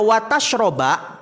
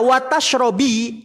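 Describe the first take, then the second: First: The verb ends with the vowel a. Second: The verb ends with the vowel i. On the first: Do not eat fish and drink milk together. "kalau dibaca watashroba" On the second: Do not eat fish and do not drink milk. "kalau dibaca watash robi"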